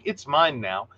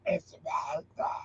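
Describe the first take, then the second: First: It is said in a normal, casual way. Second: It is said in a creepy, scary way.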